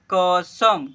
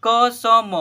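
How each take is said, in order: First: "कसम" joined as क-सम; blended into one word. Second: "कसम" as "क, स, म", loud; spelled letter by letter. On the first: Teacher reading the word to pupils, blended. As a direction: close "कसम" firmly on म, no final vowel. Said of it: "इसे पढ़ेंगे". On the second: Teacher spelling aloud for pupils, letter by letter. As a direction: give each letter of "कसम" its own long vowel. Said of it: "देखिए हिजे कीजिए ना". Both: Shown as a demonstration.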